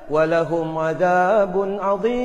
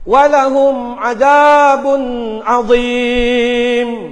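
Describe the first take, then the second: First: It is recited in a cheerful, melodious way. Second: It is recited in a loud, harsh voice.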